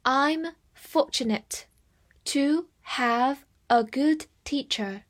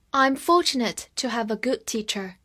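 First: Slow, word-by-word model reading. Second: Said in the usual way. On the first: Shown as a demonstration. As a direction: read it slowly with gaps between phrases. (慢慢地逐词朗读) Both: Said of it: "我们慢慢来读".

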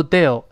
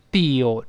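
First: "deal" with a short, cut vowel; wrong DEAL. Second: "deal" with a long, drawn-out ee; long-vowel DEAL. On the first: Teacher shows what to avoid, short-vowel "deal". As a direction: say "deal" too short, like dill. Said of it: "不要读deal". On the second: Teacher corrects learners, long-vowel "deal". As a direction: stretch the ee in "deal". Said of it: "是deal长音啊". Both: Shown as a demonstration.

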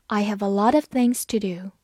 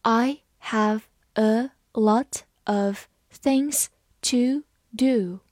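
First: Said in the usual way. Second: Slow, stretched-out model reading; read slowly. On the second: Shown as a demonstration. Teacher reading slowly so students can follow. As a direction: draw each word out for learners. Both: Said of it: "好，慢慢来读".

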